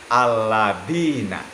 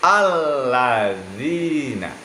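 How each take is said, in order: First: The middle consonant is a plain d sound. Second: The middle consonant is a soft th-like sound. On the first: The speaker calls it wrong. "tidak boleh dibaca alladina" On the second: The speaker calls it right. "tetapi alladzina"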